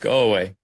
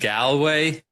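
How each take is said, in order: First: Galway is said the way Irish people say it. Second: Galway is said the way Americans say it. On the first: The speaker calls it right. "it's Galway" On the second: The speaker calls it wrong. "most Americans come over and they're like"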